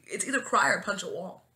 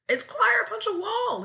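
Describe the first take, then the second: First: Said in the usual way. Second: High, loud insistent cry; emphatic insistence. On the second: Real, not acted. Defending crying as the only option, emphatic insistence. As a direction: insist on it, pitched way up.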